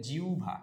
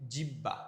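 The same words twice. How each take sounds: First: জিহ্বা said as "jiu-bha", breathed bh; correct pronunciation. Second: জিহ্বা said as "jib-ba" with a doubled b; short vowel, hard double b in জিহ্বা; common wrong pronunciation. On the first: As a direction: model জিহ্বা as "jiubha". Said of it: "না ভাই, এটা জিহ্বা না". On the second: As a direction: mispronounce জিহ্বা as "jibba". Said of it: "আমরা অনেকে বলি কি". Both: Shown as a demonstration.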